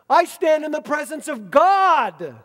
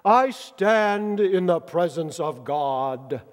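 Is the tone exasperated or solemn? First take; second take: exasperated; solemn. First: It is said in an exasperated, impatient tone. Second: It is said in a solemn, formal tone. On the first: Annoyance that the news is doubted. "maybe a little more like this" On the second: A formal proclamation of good news. "That's how he said it, right? I mean, in the Christmas plays, that's how he says it"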